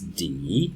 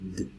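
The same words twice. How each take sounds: First: It is a full syllable with a vowel. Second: It is a short consonant with no vowel. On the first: This is the name of the letter. "The name of the letter is D" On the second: This is the sound the letter makes. "the sound it makes is D"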